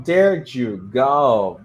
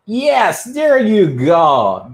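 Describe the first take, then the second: First: Said in the usual way. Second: High, drawn-out cheer of praise; teacher delighted by a student's answer; excited praise. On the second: Real, not acted. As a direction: cheer the right answer, slow and big. Cheering a correct answer live.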